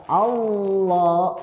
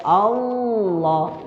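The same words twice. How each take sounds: No difference in how they are said.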